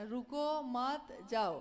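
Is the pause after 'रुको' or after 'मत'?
after मत. The pause comes right after 'मत'.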